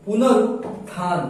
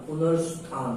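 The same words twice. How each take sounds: First: पुनरुत्थान slowly, split before "than"; पुनरुत्थान broken in two as a wrong example; wrong pronunciation demo. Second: पुनरुत्थान softer and lower, with an "s" before "than"; correct pronunciation demo. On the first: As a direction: pause inside पुनरुत्थान, "punarut - than". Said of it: "नहीं मित्रों". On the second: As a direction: run पुनरुत्थान together as "punarusthan". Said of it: "ये होगा". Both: Shown as a demonstration.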